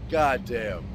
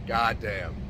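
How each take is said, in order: Both takes have the same delivery.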